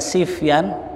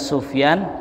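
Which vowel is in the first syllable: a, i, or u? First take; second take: i; u. First: The first syllable has the vowel i. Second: The first syllable has the vowel u. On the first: "boleh dibaca Sifyan" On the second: "boleh dibaca Sufyan"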